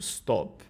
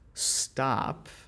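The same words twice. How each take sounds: First: The vowel is a rounded 'oh' sound. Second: The vowel is an open 'ah' sound. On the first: "as opposed to" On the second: "if you hear somebody say"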